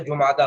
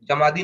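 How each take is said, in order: First: It is said as ju-maa-daa. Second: It is said as ja-maa-dee. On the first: The speaker calls it right. "जुमादा होता है" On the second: The speaker calls it wrong. "जमादी नहीं होता"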